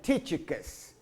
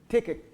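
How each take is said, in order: First: The middle consonant is a soft ch sound. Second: The middle consonant is a hard k sound. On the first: The speaker calls it wrong. "last week I called him" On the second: The speaker calls it right. "the C H is a hard sound"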